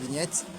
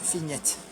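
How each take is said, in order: First: It is said with a plain French sound. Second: It is said with a Germanic-sounding accent. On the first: "It's written like that" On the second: "everything sounds more Germanic"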